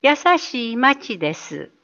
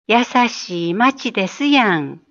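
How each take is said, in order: First: Said in the usual way. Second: Osaka dialect ending. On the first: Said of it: "大阪弁は、「優しい町です」を". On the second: Shown as a demonstration. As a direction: add the Osaka やん gently at the end. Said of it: "と言います。". (大阪弁で語尾にやんをつけて)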